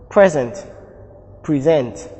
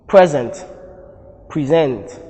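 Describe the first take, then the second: Both takes have the same delivery.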